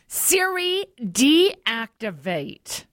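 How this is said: It is said in an angry tone.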